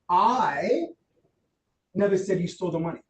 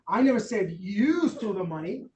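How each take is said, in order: First: The word "I" carries the strongest stress. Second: The word "you" carries the strongest stress. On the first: Someone other than the speaker said it. "What does that imply? It wasn't me" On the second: Someone else may have stolen the money. "Could have been Jason"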